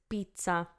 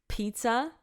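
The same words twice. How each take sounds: First: The P has almost no puff of air. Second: The P has a strong puff of air. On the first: "in Italian" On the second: "it's like my hand is being punched"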